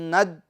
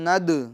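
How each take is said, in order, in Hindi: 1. अंतिम d बिना छोड़े अचानक रोक दिया जाता है। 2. अंतिम d हल्की गूंज के साथ छोड़ा जाता है। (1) "आवाज़ को मखरज में रोक देंगे, ये गलत है।" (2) "तो इसकी आवाज़ को हम लौटाएंगे। आवाज़ में जुम्बिश होगी"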